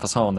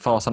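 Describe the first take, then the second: First: It has the pitch pattern of the word pheasant. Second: It has the pitch pattern of the word terror. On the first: It means pheasant. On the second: It means the terror.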